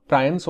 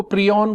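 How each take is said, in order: First: प्रायंस said with an "eye" sound, "PRY-ons"; preferred pronunciation. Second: प्रियन said with an "ee" in the first syllable, "pree-on"; alternative pronunciation. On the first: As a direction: say प्रायंस with first syllable rhyming with "pry". (प्रायंस को "प्रा-यंस" की तरह, "आइ" ध्वनि के साथ बोलें) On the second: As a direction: say प्रियन as "PREE-on", not "PRY-ons". (प्रियन को "प्री-ऑन" की तरह, लंबी ई के साथ बोलें) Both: Shown as a demonstration. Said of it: "ज्यादा बेटर प्रोनाउंसिएशन प्रायंस होगा".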